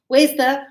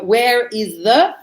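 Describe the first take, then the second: First: The words are run together into one form. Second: Each word is said separately and in full. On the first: "we put it all together" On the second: "because I go"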